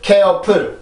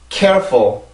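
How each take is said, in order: First: It is said with Korean-style syllables and sounds. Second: It is said with English-style stress and sounds. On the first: The speaker calls it wrong. "절대로 careful, careful 이렇게 발음하면 안 돼요. 그건 한국어 형식이고" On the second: The speaker calls it right. "영어처럼 읽으려면 careful"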